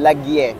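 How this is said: It is shortened and ends in an e sound. "sa amin, lagye"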